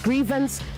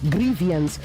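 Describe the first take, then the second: First: It has no extra vowel after the v. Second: It has an extra vowel after the v. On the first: The speaker calls it right. "It is grievance" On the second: The speaker calls it wrong. "not grievance. There is no I after the V"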